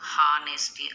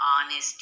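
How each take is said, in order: First: The word begins with an audible h sound. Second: The word begins directly with a vowel sound. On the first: The speaker calls it wrong. "హెచ్తో పలకకూడదు. హానెస్టీ అనకూడదు" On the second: The speaker calls it right. "ఆనెస్టీ అని పలకాలి"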